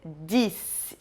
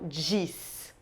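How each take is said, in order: First: It begins with a plain, hard d sound. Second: It begins with a soft dj sound. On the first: The speaker calls it right. "adotar aquele sotaquezinho do sul do Brasil" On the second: The speaker calls it wrong. "como às vezes a gente fala em São Paulo"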